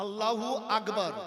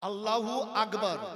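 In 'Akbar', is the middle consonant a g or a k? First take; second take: g; g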